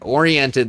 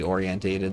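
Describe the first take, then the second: First: The word has four syllables, without the extra syllable. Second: The word has five syllables, with an extra syllable. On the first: The speaker calls it right. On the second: The speaker calls it wrong.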